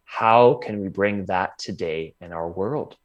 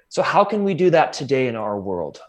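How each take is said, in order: First: It is said slowly. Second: It is said at normal speed.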